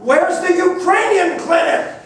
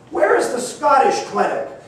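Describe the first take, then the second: First: It is asked at the loudest volume. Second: It is asked at a louder volume.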